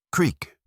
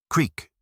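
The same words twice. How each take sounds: The two takes are said the same way.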